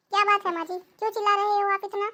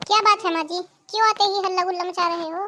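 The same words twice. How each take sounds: First: Said in the usual way. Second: Louder, annoyed snap at the mother-in-law; irritated daughter-in-law raising her voice; irritated loud reply. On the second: Acted. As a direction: scold her for all the shouting. Irritated daughter-in-law snaps back.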